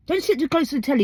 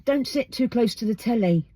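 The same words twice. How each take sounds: First: Put-on higher, like a parent telling a child off; a nagging parent's warning; a mild parental scolding. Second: Said in the usual way. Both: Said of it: "old sayings listed".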